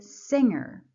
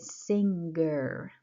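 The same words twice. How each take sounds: First: The ng ends without any hard g sound. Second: A hard g sound follows the ng. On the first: The speaker calls it right. "I say singer, and that's the sound ing" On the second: The speaker calls it wrong. "I don't say singer. I don't pronounce N and G like very clearly"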